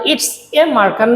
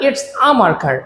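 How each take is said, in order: First: "a" pronounced as the letter name "ay"; full "ay" article. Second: "a" pronounced as a short open "ah"; article as "ah". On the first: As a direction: say "a" as "ay" before marker. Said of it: "তখন এটাকে এ বলবো না". ("a" কে "এ" উচ্চারণ) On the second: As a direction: run "it's a" together as "its-ah" before marker. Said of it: "আমরা বলবো আ". ("a" কে "আ" উচ্চারণ) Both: Shown as a demonstration.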